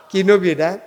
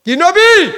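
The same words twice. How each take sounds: First: Said in the usual way. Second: High, very loud demand to the congregation; rousing preacher's shout; shouted prompt. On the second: Real, not acted. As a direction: shout the question to rouse the crowd.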